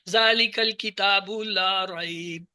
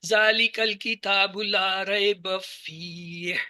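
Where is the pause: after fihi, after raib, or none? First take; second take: after raib; after fihi. First: There is a pause right after raib. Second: There is a pause right after fihi. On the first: "यहां रुके, फीही हुदल लिल मुत्तकीन" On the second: "यहां पे रुक जाएंगे, हुदल लिल मुत्तकीन को अलग पढ़ेंगे"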